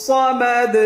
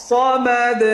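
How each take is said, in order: No difference in how they are said.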